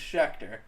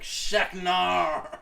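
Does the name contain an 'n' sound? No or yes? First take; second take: no; yes. First: The name is said without any 'n' sound. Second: The name is said with an added 'n' sound. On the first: The speaker calls it right. "my last name's Schechter" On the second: The speaker calls it wrong. "he'd be like, Sheknar! And that's how I pronounced it. That's not me over exaggerating it"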